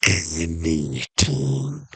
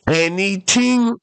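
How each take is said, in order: First: Very slow, low and drawn out; mysterious genie. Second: High, drawn-out incredulous question; amazed question. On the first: Genie confirming the offer to castaway, slow low voice. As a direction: confirm it low, stretching every syllable. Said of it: "And the genie goes". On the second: Castaway questioning the genie's offer, high amazed voice. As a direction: ask it in high, slow wonder, rising. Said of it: "And the guy's like". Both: Acted.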